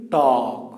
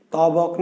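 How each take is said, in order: First: তক as one syllable, no b sound; silent ব. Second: তবক with the ব fully sounded; wrong pronunciation. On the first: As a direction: draw out তক, leaving the ব silent. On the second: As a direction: say তবক with a clear b in the middle. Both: Shown as a demonstration. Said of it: "এই বয়ের কি কোনো উচ্চারণ করেছেন".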